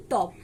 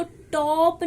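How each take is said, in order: First: Said in the usual way. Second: टॉप with a stretched, stressed long o; wrong long vowel. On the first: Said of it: "क्या पढ़ते हैं?". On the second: Shown as a demonstration. Shorthand teacher showing students the wrong reading, stressed long o. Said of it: "अब इसको टॉप नहीं पढ़ते".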